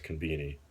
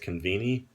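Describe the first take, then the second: First: The middle consonant is a B sound. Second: The middle consonant is a V sound. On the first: "they kind of pronounce it as conveni" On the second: "even though it's conveni"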